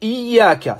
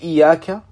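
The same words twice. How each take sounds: First: The y sound is held and doubled. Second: The y sound is short and not doubled. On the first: It means you alone. The speaker calls it right. "au lieu de dire « Iyaka », c'est toi seul que nous adorons" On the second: It refers to the rays of the sun. The speaker calls it wrong. "si on n'appuie pas sur le ya"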